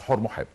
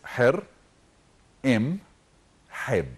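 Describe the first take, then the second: First: The name starts with 'Hor' and runs together. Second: The name starts with 'Her' in three parts. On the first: The speaker calls it wrong. "we all pronounce his name wrong" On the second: The speaker calls it right. "His true name is"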